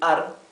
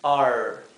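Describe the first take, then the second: First: The R is pronounced as in Spanish. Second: The R is pronounced as in English. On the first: The speaker calls it wrong. "cuando hablamos la R nuestra. Si, si decimos you are" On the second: The speaker calls it right. "la R inglesa"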